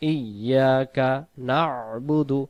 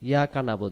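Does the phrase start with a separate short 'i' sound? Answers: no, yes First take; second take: yes; no. First: It starts with a short 'i' before 'ya'. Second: It starts directly with 'ya', no 'i' first. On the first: The speaker calls it right. "উচ্চারণ হবে ই ইয়া কা" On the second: The speaker calls it wrong. "ইয়া বা হামজা অক্ষরটা বাদ চলে যাইতেছে"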